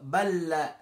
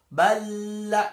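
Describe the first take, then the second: First: The l sound is pronounced once, merged. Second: The l sound is pronounced twice, doubled. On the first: The speaker calls it right. "Balla yang dibaca cukup lam yang kedua" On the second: The speaker calls it wrong. "sehingga tidak perlu dibaca uh, double. Balla tidak perlu"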